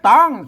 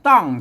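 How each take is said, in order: First: The syllable is said with a high tone. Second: The syllable is said with a falling tone. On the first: "เสียงตี" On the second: "เสียงโท"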